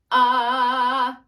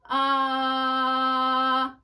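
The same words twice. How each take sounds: First: Loud sung ah right on pitch; sung note in tune. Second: Sung ah a little under pitch; flat sung note. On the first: Teacher sings the target note for the class. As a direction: sing the ah cleanly on the note. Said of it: "Say you're supposed to sing this note". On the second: Sung, teacher shows students a flat note. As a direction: sing the ah slightly flat. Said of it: "that's flat". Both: Shown as a demonstration.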